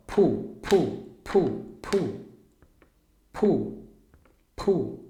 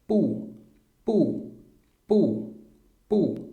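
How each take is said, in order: First: Pu with a strong puff of air on the p; aspirated pu. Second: Pu said with no puff of air, like Portuguese b; unaspirated pu. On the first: Teacher showing the paper test for Mandarin p, aspirated pu. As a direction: blow out hard on each pu. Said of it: "aí você vai soprar mais". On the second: Teacher demoing Mandarin b to Brazilian students, unaspirated pu. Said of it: "Então, ó". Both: Shown as a demonstration.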